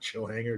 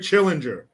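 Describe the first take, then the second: First: The name is said as two words, chill hanger. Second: The name is said as one word, chill-inger. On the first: The speaker calls it wrong. "Not chill hanger, dumbass" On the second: The speaker calls it right. "That's how I'm supposed to say it, right?"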